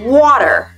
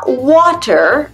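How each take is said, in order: First: The middle consonant sounds like a D. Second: The middle consonant is a clear T. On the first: The speaker calls it right. "Pour l'accent américain, water. Le T, ça devient un D" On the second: The speaker calls it wrong. "on ne dit pas water"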